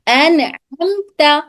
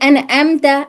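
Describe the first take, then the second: First: It starts with a tight throaty ain. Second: It starts with a light glottal stop.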